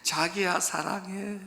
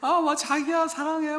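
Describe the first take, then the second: First: Slow, soft "자기야 사랑해", only lightly put on; softer Seoul proposal. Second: High, airy, mincing "자기야 사랑해" with a teasing lilt; mock Seoul sweet talk. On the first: Preacher first quoting Seoul men's proposals, slow and softly put on. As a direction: drawl "자기야" gently, a hint of a lover. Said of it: "서울 남자들이 어떻게 프로포즈 하는지". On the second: Preacher teasing Seoul men's proposals, in a high, mincing mock croon. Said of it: "서울 사람들은".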